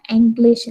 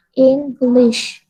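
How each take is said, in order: First: "English" said ENG-lish, the habit to drop; the old wrong English. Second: "English." said ING-glish with i; the right way to say English; correct English. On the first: Teacher warns students off the wrong "English". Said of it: "jangan mengucapkan English lagi". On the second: Teacher models "English." for students, clear. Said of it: "Yang tepat apa?". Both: Shown as a demonstration.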